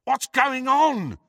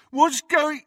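First: High, drawn-out call; shouting. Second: High, jeering imitation, cut off; mimicking. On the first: Friend beyond the junk wall, shouting. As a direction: call the question over a wall. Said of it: "shouted Ron again". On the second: Henchman aping the friend's question, mimicking. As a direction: parrot the question mockingly. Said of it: "mimicked Crabbe". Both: A narrator's reading.

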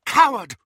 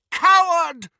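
First: Loud, raised cry. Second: Much higher, louder shout. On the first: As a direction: call it out loud in contempt. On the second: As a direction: yell it out even harder. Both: Acted. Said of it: "Harry heard McGonagall cry".

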